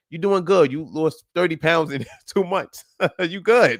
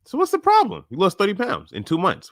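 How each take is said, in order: First: Chuckling through the good news; amused, proud encouragement; laughing praise. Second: High, disbelieving question; can't believe she thinks there's a problem; pitched-up surprise at the weight loss; incredulous. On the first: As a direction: laugh as you cheer her on. Coach praising client, laughing. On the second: Coach incredulous at client's worry. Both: Real, not acted.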